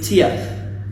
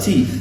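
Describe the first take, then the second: First: The vowel is split into two sounds. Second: The vowel is one long sound. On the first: The speaker calls it wrong. "we don't say Tiath" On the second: The speaker calls it right. "We have teeth"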